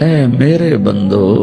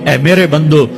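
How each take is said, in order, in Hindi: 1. यह नरम, प्यार भरे लहजे में कहा गया है। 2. यह सपाट, बिना स्नेह के लहजे में कहा गया है।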